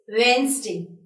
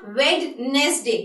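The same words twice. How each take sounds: First: The d sound in the middle is silent. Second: The d sound in the middle is pronounced. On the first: The speaker calls it right. "you'll be avoiding this D word" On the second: The speaker calls it wrong. "it is not Wednesday"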